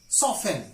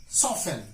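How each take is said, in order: The two takes are said the same way.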